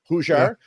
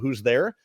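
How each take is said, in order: First: It is said in a heavy local accent. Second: It is said in a plain, standard accent.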